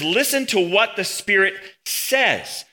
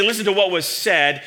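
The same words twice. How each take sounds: First: Slow, weighty "Listen to what the Spirit says" with Spirit leaned on; slow solemn emphasis on "Spirit" as the true speaker; stress on Spirit. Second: Said in the usual way. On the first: Shown as a demonstration. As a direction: draw out every word and land hard on "Spirit". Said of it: "He says". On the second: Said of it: "He doesn't say".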